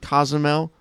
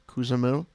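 First: The name begins with a 'co' sound. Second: The name begins with a 'coo' sound.

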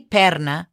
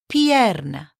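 First: The first vowel is a plain 'e' sound. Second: The first vowels are 'i' then 'e', both voiced. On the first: The speaker calls it wrong. "You don't say perna or pirna" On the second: The speaker calls it right. "Both of them. You have to say them both"

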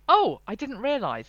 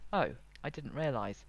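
First: The voice sounds lively and surprised. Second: The voice sounds flatter and subdued. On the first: The speaker is surprised. "the reader hears the tone of surprise" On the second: The speaker is disappointed, annoyed or frustrated. "the tone will shift to something a little flatter"

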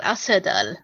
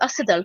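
First: The middle consonant is an s sound. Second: The middle consonant is a th sound. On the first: This follows the original Korean name. "A S E U D A L. Arthedal, like that" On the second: This follows the official English title. "every time I say it, I feel like I have a lisp"

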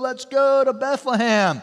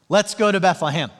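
First: It is said in a laid-back surfer accent. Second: It is said in the speaker's ordinary accent.

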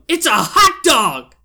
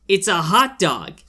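First: It is said furiously, with great energy. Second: It is said calmly, with little energy.

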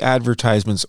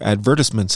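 First: The word is said the American way. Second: The word is said the British way.

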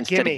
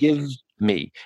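First: The two words blend into one sound, gimme. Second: The two words are said separately and fully. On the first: "When we do what is called assimilation, the combining of sounds, we say words like gimme" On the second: "Instead of give me"

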